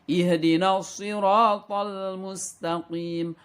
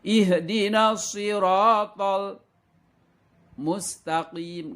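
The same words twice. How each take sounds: First: The phrase flows without any pause. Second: There is a brief pause inside the phrase. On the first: The speaker calls it right. "harus benar-benar tidak ada jeda" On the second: The speaker calls it wrong. "Tidak boleh ada diam bacaannya"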